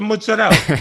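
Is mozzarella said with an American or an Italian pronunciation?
Italian. The word is said with an Italian pronunciation. The speaker belongs to the culture. The speaker calls it right. "It's the mozzarella"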